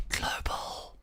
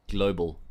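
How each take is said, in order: First: Hushed, voiceless whisper; whispered boast. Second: Said in the usual way. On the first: Pretend. Streamer showing off rank to viewers, whispered boast.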